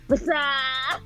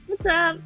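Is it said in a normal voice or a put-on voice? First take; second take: put-on; normal. First: It is said in a Scream-style voice. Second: It is said in a normal voice.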